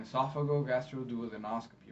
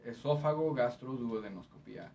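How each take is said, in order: First: Esophagogastroduodenoscopy the English way, ending in -NOS-kuh-pee; English pronunciation. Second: Spanish ending in -pía; Spanish accent. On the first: Interpreter following the Spanish with English esophagogastroduodenoscopy, ending -NOS-kuh-pee. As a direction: say esophagogastroduodenoscopy in English, in one run. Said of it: "in English is". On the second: Interpreter contrasting Spanish with English, in a Spanish accent. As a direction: say the long term in Spanish. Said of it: "with a Spanish accent". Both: Shown as a demonstration.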